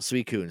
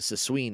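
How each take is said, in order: First: The name is said as Suicune. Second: The name is said as Sasuine. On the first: The speaker calls it right. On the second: The speaker calls it wrong.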